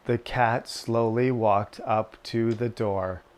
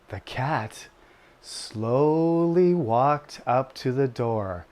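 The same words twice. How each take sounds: First: It is read flatly with little pitch change. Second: It is read with lively, varied pitch and energy. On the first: "you just say" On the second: "you don't need to talk like that"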